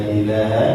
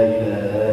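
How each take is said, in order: No difference in how they are said.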